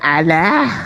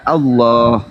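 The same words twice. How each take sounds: First: It is said the plain local Indonesian way. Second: It is said by the Arabic reading rule. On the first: This is how outsiders read the word. The speaker calls it wrong. "Kamu aja yang memperbodoh diri membacanya Allah" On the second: This is the reading rule of the word's owners. The speaker calls it right. "padahal kaidah membacanya adalah Allah"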